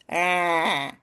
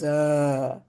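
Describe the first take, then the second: First: The sound is placed forward in the nose. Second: The sound is placed far back in the throat. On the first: "nasal, I'm putting it all the way in my nose" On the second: "dull, I'm bringing it uh, like way in the back of my throat"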